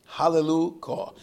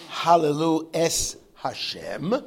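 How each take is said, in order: First: Hallelujah proclaimed as one word, higher and loud; loud, unified HALLELUJAH; one-word praise. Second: Hallelu es Hashem, slow and loud, word by word; loud, drawn-out Hallelu... es... Hashem; separated words. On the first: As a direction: ring out HALLELUJAH as a single unit. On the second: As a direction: pull HALLELU, ES and HASHEM apart. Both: Shown as a demonstration. Contrast of one word versus many.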